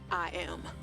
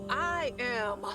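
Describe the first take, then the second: First: It is said hesitantly, without conviction. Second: It is said firmly, with conviction.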